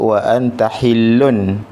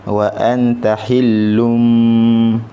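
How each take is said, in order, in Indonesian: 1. Kata terakhir berakhir dengan bunyi n. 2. Kata terakhir berakhir dengan bunyi m. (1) "dia tak sebut wa anta hillun" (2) "tapi wa anta hillum sebab dia bertemu dengan huruf ba"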